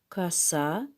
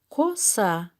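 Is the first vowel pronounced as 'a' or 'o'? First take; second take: a; o. First: The first vowel sounds like 'a'. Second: The first vowel is a clear 'o'. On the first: This is how the word is actually spoken. "Мы так произносим" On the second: This is how the word is written. "Мы так пишем"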